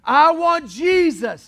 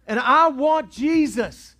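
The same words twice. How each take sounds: First: Higher slow shout. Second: Slow loud cry. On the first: Repeated cry rising. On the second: First of repeated cry. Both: Acted.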